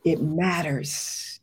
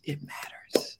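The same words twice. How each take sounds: First: Drawn-out, weighty pronouncement; slow and heavy. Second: Soft breathy whisper, almost to herself. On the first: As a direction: let each word sink in slowly. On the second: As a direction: drop to a hushed whisper. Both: Real, not acted. Emotional repeated affirmation.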